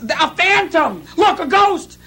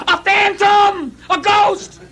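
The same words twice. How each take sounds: First: High, slow frightened cry; mock panic. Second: High, slow panicked cry; terrified scream. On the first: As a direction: shout like panicked fishermen. Retells the disciples' panic. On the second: Retold or imitated. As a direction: yell as if seeing a ghost. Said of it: "the first thing they scream out is".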